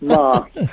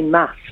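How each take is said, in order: First: It is said with a southern English vowel. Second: It is said with a northern English vowel.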